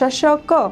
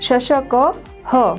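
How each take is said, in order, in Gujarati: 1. શબ્દનો અંત સાદા સ્વરથી થાય છે. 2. શબ્દનો અંત શ્વાસવાળા h અવાજથી થાય છે. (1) "માત્ર શશક એટલું જ ઉચ્ચારણ કરો તો એ ખોટું છે" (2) "એનું ઉચ્ચારણ હ થશે"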